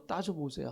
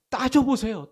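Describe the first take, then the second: First: Soft echo. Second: Raised, high urging call. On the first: Preacher repeating his urging to the congregation, quietly. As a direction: drop it to a quiet aside. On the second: Preacher urging the congregation to argue with God, raised. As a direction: push them to act. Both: Real, not acted.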